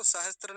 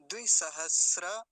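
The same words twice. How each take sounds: First: सहस्त्र with an intrusive t; सहस्त्र ending in "str"; wrong form. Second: द्विसहस्र loud, ending in "sra"; slow, emphatic द्विसहस्र with a full final a; correct form. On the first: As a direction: say सहस्त्र as "sahastr". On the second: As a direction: leave any t out of द्विसहस्र. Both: Shown as a demonstration. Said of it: "सहस्त्र नहीं बोलेंगे".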